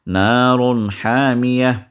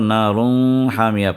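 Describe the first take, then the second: First: The n sound is pronounced clearly. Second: The n sound is hidden and nasalized. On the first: The speaker calls it right. "इजहार करके आप पढ़ रहे हैं इस तनवीन को" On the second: The speaker calls it wrong. "इख्फा करके आप पढ़ेंगे ... लेकिन वो गलत है"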